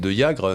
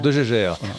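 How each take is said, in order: First: The name is said with a Flemish pronunciation. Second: The name is said with a French pronunciation. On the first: "si c'était la prononciation flamande" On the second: "On prononce la française"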